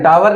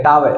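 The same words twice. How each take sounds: First: टावर as 'taa-var', final R heard; rising टावर with sounded R; R-sounded pronunciation. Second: टावर as 'taa-ve', no R; British R-dropping. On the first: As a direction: keep the R ending टावर. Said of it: "American टावर". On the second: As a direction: drop the R ending टावर. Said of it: "ये कहते हैं टावर". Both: Shown as a demonstration.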